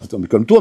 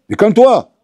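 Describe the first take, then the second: First: Said in the usual way. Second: Calme-toi lancé fort et plus aigu, agacé; crier calme-toi. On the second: Acted. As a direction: hausser le ton sur calme-toi. Le dentiste s'énerve contre le patient. (calme-toi crié par le dentiste excédé)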